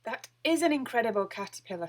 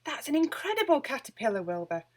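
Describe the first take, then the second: First: A touch calmer cat's thought; Wilbur's inner thought. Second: Higher, louder, amazed witch; Winnie's delighted exclamation. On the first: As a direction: think it to yourself, less excited. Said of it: "thought Wilbur". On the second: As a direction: gasp it out in wonder. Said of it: "Winnie said". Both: A narrator's reading.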